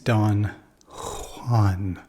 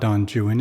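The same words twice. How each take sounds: First: The name is pronounced with a Spanish sound. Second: The name is pronounced with an English sound. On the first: The speaker calls it right. "it's Don Juan" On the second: The speaker calls it wrong. "it's not Don Juan"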